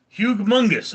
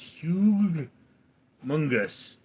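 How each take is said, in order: First: "Hugh Mungus" run together as one word, higher on the start; name figured out. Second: "Hugh Mungus" split into two separate words with a pause between; mispronounced name. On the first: Streamer getting the chat name's joke, joined-up pronunciation. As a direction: say "Hugh Mungus" joined up, the pun suddenly clear. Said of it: "all right, makes sense now". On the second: Streamer trying an unfamiliar chat name, halting pronunciation. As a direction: sound out "Hugh", stop, then "Mungus", unsure. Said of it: "I'm gonna mispronounce this". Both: Real, not acted.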